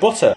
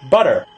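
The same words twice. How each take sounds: First: The middle consonant is a clear T sound. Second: The middle consonant sounds like a D.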